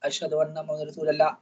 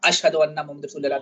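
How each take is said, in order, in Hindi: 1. यह धीमी, नीची आवाज़ में कहा जाता है। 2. यह ऊँची, उठी हुई आवाज़ में कहा जाता है। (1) "पहली मर्तबा जो है धीमी आवाज़ से कहा जाए" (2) "दूसरी मर्तबा तेज़ आवाज़ से"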